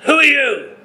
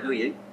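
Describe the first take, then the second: First: It is asked in an angry, booming way. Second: It is asked in a friendly, casual way.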